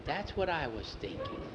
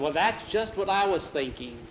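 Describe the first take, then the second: First: Soft, secretive reply; hushed agreement. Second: Higher-pitched, animated reply; eager agreement. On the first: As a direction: agree under the breath, keeping it secret. Secret agreement to run away. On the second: Same agreement repeated more openly. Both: A narrator's reading.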